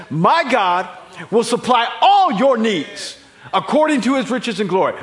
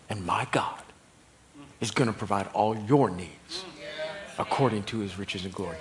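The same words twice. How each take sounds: First: Loud, high pulpit proclamation with "all" hit hard; emphatic proclamation. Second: Low, deliberate quote with weight on "your"; measured emphatic promise. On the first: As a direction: thunder the promise to the congregation. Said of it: "An emphatic, didactic statement". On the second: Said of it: "he gets this emphatic". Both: Retold or imitated.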